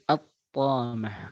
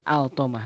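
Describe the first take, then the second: First: The L merges into a doubled t sound. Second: The L sound is pronounced before the t. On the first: The speaker calls it right. "lamnya hilang. Dan dibaca langsung menuju ta" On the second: The speaker calls it wrong. "Bukan bukan bukan bukan"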